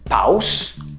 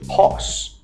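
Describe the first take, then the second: First: The vowel is not pronounced like an O. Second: The vowel is pronounced like an O. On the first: The speaker calls it wrong. "instead of saying pause" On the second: The speaker calls it right. "you're gonna say pause"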